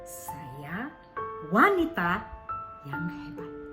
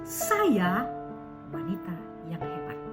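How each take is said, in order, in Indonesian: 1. Kata kedua yang ditekankan. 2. Kata pertama yang ditekankan. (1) "Ketika kita tekankan di wanitanya" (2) "yang ditekankan adalah sayanya"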